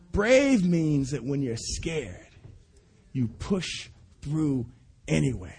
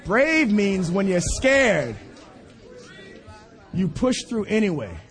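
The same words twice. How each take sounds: First: Slow, dropping to soft at the end; slow fading emphasis. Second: Slowed, weighty restatement; slow emphatic repeat. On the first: Preacher repeats the lesson to people, slow and fading. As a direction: let it sink in quietly. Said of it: "third take, slower, fading". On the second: Preacher drives home the son's lesson to the congregation slowly. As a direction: give each word weight. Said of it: "preacher repeats slowly". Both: Real, not acted.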